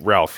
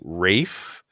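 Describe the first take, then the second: First: The name is said with an L sound. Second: The name is said without an L sound. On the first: The speaker calls it wrong. "He does not pronounce it Ralph" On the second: The speaker calls it right. "He pronounces his name Rafe"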